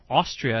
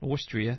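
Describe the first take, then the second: First: The word is said in a Jersey accent. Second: The word is said in a standard accent.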